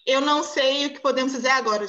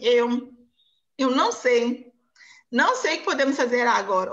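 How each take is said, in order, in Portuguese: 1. É dita de forma fluida, sem pausas. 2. É dita de forma hesitante, com pausas e repetições. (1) "Você não vai falar" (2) "tem toda uma entonação diferente"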